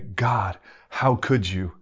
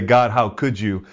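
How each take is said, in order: First: It is said in an amazed, grateful tone. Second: It is said in an accusing, complaining tone. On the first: Marveling at God's undeserved goodness. The speaker calls it right. "It's when something good happens. You should say" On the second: Blaming God for something bad. The speaker calls it wrong. "when something bad happens, you shouldn't say"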